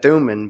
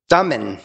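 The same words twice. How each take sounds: First: The first syllable does not sound like thumb. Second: The first syllable sounds like the word thumb. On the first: The speaker calls it wrong. "I had said it wrong all these many, many times" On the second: The speaker calls it right. "Thummim, like you're thumbing for a ride"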